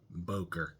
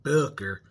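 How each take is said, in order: First: The first vowel is a plain English 'oh'. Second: The first vowel is a German umlaut sound. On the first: "us U S citizens call it Boker" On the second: "that's the way the O and the umlaut is supposed to be pronounced"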